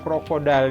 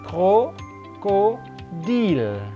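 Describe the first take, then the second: First: It is pronounced the English way. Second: It is pronounced the French way. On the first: The speaker calls it wrong. "tidak boleh yang ini dibaca krokodil. Ini bukan bahasa Inggris" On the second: The speaker calls it right. "ini adalah bahasa Prancis"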